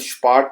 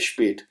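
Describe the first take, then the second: First: The vowel is an open 'ah' sound. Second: The vowel is a flatter 'eh' sound. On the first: The speaker calls it wrong. "इसको हम स्पाट नहीं पढ़ेंगे" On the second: The speaker calls it right. "बल्कि हम इसको पढ़ेंगे स्पेट"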